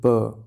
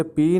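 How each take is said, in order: First: प as a bare p sound with a short uh; phoneme sound. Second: पी as the alphabet name, with long ee; letter name. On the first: Teacher showing students the phoneme between slashes, प sounded out. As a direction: sound out प, "puh", rather than naming the letter. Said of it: "अब इसे बोलेंगे प". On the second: Teacher showing students what not to say, पी as letter name. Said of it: "अब इसे पी नहीं बोलेंगे". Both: Shown as a demonstration.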